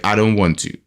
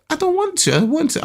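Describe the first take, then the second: First: Said in the usual way. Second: High-pitched imitation of a son's refusal; protesting child. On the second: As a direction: mimic a kid's repeated protest, way up high. Voices son protesting.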